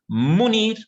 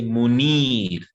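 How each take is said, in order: First: "munir" with MU hit high and loud; stress on first syllable. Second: "munir" with a long, stressed NIR; stress on second syllable. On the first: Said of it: "Do we say munir". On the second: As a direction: lean on the end: mu-NIR. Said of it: "we stress the second one". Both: Shown as a demonstration.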